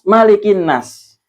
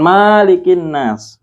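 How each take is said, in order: First: The first vowel is said short. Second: The first vowel is said long. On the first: The speaker calls it right. "tapi ini mimnya dibaca pendek" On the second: The speaker calls it wrong. "bukan malikin nas"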